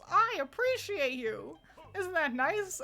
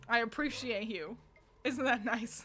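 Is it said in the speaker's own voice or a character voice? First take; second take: character voice; own voice. First: It is said in an imitation of Beedle's voice. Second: It is said in his own normal voice.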